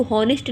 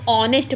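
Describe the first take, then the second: First: "हॉनेस्ट" with the H sounded; H उच्चारित. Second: "ऑनेस्ट" starting straight on the vowel; silent H. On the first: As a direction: say "हॉनेस्ट" starting on an audible h. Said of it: "इसको हॉनेस्ट नहीं पढ़ा जाता". ("हॉनेस्ट" में शुरू का ह बोलकर) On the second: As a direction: drop the h in "ऑनेस्ट", open on aw. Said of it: "इसको ऑनेस्ट पढ़ा रहा है". ("ऑनेस्ट" में ह चुप, आ से शुरू) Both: Shown as a demonstration.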